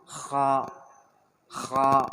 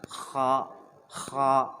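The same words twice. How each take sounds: No difference in how they are said.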